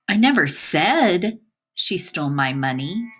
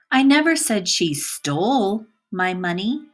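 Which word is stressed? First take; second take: said; stole. First: The word "said" carries the stress. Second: The word "stole" carries the stress. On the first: It was conveyed in some other way. "By emphasizing the word said" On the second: She did something else with the money. "By emphasizing the word stole"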